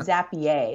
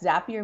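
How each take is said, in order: First: The name rhymes with the word Perrier. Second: The name rhymes with the word happier. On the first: "like Perrier" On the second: "Zapier makes you happier"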